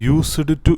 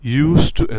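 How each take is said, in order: First: A clear d sound comes before 'to'. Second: No d sound comes before 'to'. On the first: The speaker calls it wrong. "യൂസ്ഡ് ടു എന്ന് പറയരുത്" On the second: The speaker calls it right. "യൂസ് ടു എന്നാണ് പറയേണ്ടത്"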